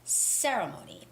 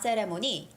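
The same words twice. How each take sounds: First: The stress falls on the first syllable. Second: The stress falls on a later syllable. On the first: The speaker calls it right. "Ceremony with the first syllable stress" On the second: The speaker calls it wrong. "it's not ceremony"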